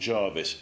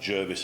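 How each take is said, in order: First: The first vowel sounds like 'ar'. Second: The first vowel sounds like 'er'. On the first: The speaker calls it wrong. "not an r" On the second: The speaker calls it right. "with an er at the start"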